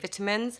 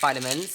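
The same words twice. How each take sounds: First: It is said in a British accent. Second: It is said in an American accent.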